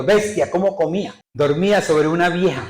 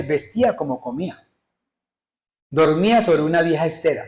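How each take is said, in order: First: Botched reading with "Bestia" for vestía and a false full stop on "vieja"; misreading. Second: Careful corrected reading, "Vestía como comía" as a plain statement. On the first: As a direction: misread VESTÍA as "Bestia", as an exclaimed noun, stopping after "vieja". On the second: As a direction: read "Vestía" with stress on the í, running "vieja estera" together as one phrase. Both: Shown as a demonstration. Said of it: "Lea bien".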